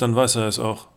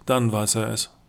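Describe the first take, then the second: First: Weiß stressed, dann weiß er es auch. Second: Dann stressed, dann weiß er es. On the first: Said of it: "Wenn einer nicht glücklich ist, dann weiß er es". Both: A narrator's reading.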